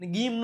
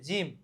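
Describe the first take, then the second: First: It starts with a hard g sound. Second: It starts with a soft j sound. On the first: The speaker calls it wrong. "ગીમ નો વચે" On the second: The speaker calls it right. "વચે જીમ"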